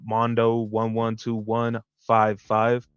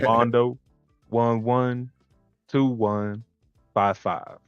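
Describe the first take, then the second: First: It is said at normal speed. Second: It is said slowly and carefully.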